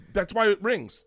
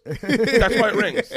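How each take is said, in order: First: High-pitched, exasperated comeback; exasperated retort. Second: High, slow, loud exasperated retort; exasperated yell. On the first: Husband answering wife about the phone, exasperated. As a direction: explain it with comic exasperation. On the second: Husband to wife about her ringing phone, yelling. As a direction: drag it out in a loud comic yell. Mock-exasperated answer, escalated. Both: Retold or imitated.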